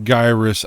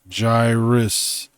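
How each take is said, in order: First: The first syllable differs from the start of gyroscope. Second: The first syllable sounds like the start of gyroscope. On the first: The speaker calls it wrong. "it's not pronounced gyrus" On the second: The speaker calls it right. "It's a gyroscope"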